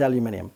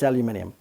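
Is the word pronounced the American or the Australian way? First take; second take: Australian; Australian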